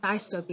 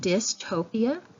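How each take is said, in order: First: The first syllable has a long I vowel. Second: The first syllable has a short I vowel. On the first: The speaker calls it wrong. "it's not the long I sound, it's not dystopia" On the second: The speaker calls it right. "with a short I, the short I vowel sound"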